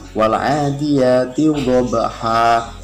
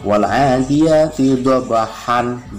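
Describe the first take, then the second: First: The final word ends with a lengthened vowel. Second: The final word ends with an n sound.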